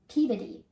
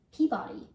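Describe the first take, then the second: First: Peabody as PEE-bih-dee; local pronunciation. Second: Peabody as PEE-bah-dee; outsiders' pronunciation. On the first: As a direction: squash the middle of Peabody to a weak vowel. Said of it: "this museum is pronounced". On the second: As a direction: give Peabody a full open middle vowel. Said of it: "people outside of New England say". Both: Shown as a demonstration.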